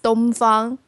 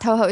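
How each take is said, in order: First: The name is read with Chinese pronunciation. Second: The name is read with Japanese pronunciation. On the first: This is how Chinese fans read the name. "That two characters we're reading in Chinese is Dongfang" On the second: This is how fans elsewhere read the name. "It's not Touhou"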